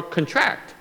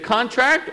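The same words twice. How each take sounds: First: "contract" said con-TRACT; "contract" with a light con and stressed TRACT; stress on second syllable. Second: "contract" said CON-tract; "contract" with a stressed CON and lighter tract; stress on first syllable. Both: Shown as a demonstration. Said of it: "Depending on how it sounds".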